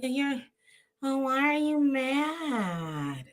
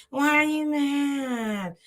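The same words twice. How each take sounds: First: Put-on drawn-out girly "why are you mad"; young girl's voice. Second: Slow, higher, girlish mock of her whine; drawn-out girly "why are you mad"; young girl's voice. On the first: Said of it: "she does sound really young". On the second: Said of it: "that's how she talks". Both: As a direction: imitate her sounding young and puzzled.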